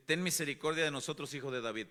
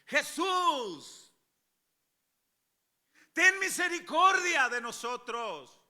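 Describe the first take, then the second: First: Said in the usual way. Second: High, drawn-out desperate shout; crying out. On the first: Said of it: "lo podemos leer así calmadito". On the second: Acted. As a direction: cry out for mercy at full voice. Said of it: "dando voces, era algo como esto". (gritando, dando voces)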